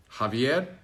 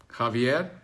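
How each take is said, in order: Both takes have the same delivery.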